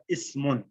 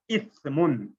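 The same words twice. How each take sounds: First: اسمن with a hissed s; اسمن, sharp s sound before mun; ismun with seen. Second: اسمن said as ith-mun; seen lightened to tha. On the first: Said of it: "سین کے ساتھ". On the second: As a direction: say اسمن with th as in think. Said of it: "سین کو جو ہے light کر دیتا ہوں". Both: Shown as a demonstration.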